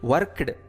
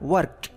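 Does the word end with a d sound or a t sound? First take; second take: d sound; t sound. First: The ending sounds like a d. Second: The ending sounds like a t. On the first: The speaker calls it wrong. "ವರ್ಕ್ಡ್ ಅನ್ನೋದಕ್ಕಿಂತ" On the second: The speaker calls it right. "ಟಿ sound ಬರೋ ಥರ pronounce ಮಾಡಿದ್ರೆ"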